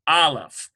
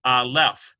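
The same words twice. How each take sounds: First: Aleph accented firmly on the first syllable; AH-leph, light second syllable in aleph; corrected stress. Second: Aleph wrongly accented on the last syllable; a-LEPH, weight on the second syllable of aleph; misplaced stress. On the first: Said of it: "instead of aleph, it's aleph". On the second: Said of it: "instead of aleph". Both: Shown as a demonstration.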